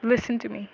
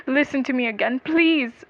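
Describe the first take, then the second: First: Said in the usual way. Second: Rising, louder, insistent begging; urgent plea. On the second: A narrator's reading. Accused man interrupts the lawyer, pleading urgently. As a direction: beg to be heard, climbing on "please".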